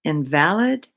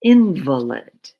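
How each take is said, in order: First: Invalid stressed on the second syllable, in-VAL-id, not valid. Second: Invalid stressed on the first syllable, IN-vuh-lid, a sick person; IN-valid. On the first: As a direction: invalid said as the adjective, geçersiz. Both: Shown as a demonstration. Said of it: "invalid or invalid".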